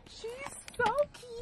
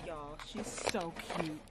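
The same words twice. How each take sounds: First: Much higher, slow squealing delight; excited squeal. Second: Said in the usual way. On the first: Real, not acted. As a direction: squeal it out with joy. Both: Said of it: "I'm screaming".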